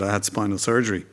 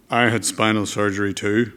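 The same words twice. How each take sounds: First: Said in the usual way. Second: Lightly put-on Northern Irish accent; Gerry Adams. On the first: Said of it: "And he said". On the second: Politician answers the boy about surgery, imitated Northern Irish accent. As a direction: imitate a Belfast speaker swapping stories. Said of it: "sorry about the accent".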